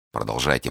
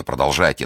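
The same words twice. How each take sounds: First: Said in the usual way. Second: The second продолжайте louder and pressing; продолжайте louder, urging her on; hurrying. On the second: Acted. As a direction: push продолжайте harder, impatient. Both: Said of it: "торопил Фельтон".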